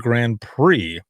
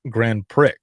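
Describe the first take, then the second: First: Prix ends in a vowel with silent X. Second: Prix ends with a clearly pronounced X sound. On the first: "instead of saying Grand Prix" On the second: "use the X as an actual X"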